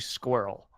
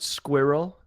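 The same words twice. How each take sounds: First: It is said with an American pronunciation. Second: It is said with a British pronunciation. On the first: The speaker calls it wrong. "as opposed to squirrel" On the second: The speaker calls it right. "my preference of the word squirrel"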